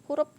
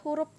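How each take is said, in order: The two takes are said the same way.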